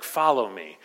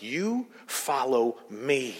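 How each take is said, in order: First: Said in the usual way. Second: Slow, pointed "You", stretched and set apart; measured rebuke with long weight on "You"; emphatic YOU. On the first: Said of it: "the first time he's like". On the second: Retold or imitated. Preacher voicing Jesus rebuking Peter, emphatic YOU. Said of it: "Jesus is rebuking him".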